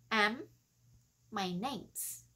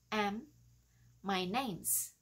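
Both takes have the same delivery.

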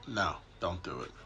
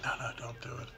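First: It is said in a mean, serious tone. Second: It is said in a mild, gentle tone.

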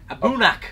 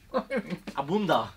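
First: The name ends in a k sound. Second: The name ends in an a vowel. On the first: This is the real pronunciation. The speaker calls it right. "but it's a boonak" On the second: This is what it was called for years. The speaker calls it wrong. "what have we been calling it?"

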